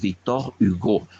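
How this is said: It is said with French pronunciation. "se dice, por lo tanto"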